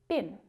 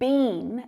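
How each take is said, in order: First: The vowel in the word is short and reduced. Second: The vowel in the word is long and full. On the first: The speaker calls it right. "What you'll actually hear is been, with a short vowel sound" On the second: The speaker calls it wrong. "you won't really hear people saying been"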